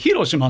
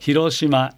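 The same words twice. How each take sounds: First: The pitch is high on the first mora, then falls. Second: The pitch rises and stays level without falling. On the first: The speaker calls it wrong. "頭だかでしたら例えば広島ね" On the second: The speaker calls it right. "平板ですね"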